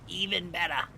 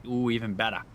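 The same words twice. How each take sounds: First: Silly high voice. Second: Said in the usual way. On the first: Pretend. Repeats in higher voice.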